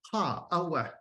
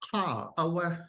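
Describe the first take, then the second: First: The high tone falls in pitch. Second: The same.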